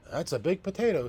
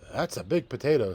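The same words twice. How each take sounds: First: Much higher, louder wife; wife's voice. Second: Louder, satisfied farmer; farmer's voice. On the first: Wife marveling at the big potato, high amazed voice. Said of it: "said the wife". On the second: Farmer admiring the harvested potato, proud and loud. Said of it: "said the farmer". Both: Acted.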